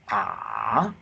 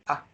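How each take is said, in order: First: It dips low in pitch, the third tone. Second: It is said lightly, with a neutral tone. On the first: "the third tone is"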